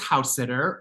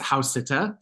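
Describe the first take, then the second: First: It is said with a plain English accent. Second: It is said with a German accent.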